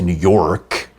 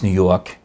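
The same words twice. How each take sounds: First: The final R in 'York' is pronounced. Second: The final R in 'York' is dropped. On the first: "You don't say New York" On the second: "you almost drop the R in New York"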